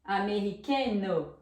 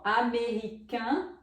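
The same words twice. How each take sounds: First: Americano ending "KÈN-nuh", N sounded; French feminine pronunciation. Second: American ending in a nasal vowel, no N heard; French masculine pronunciation. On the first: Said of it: "Olha a pronúncia". (americano à francesa, com N final pronunciado) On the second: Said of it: "a pronúncia se modifica". (American à francesa, final nasal sem N) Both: Shown as a demonstration.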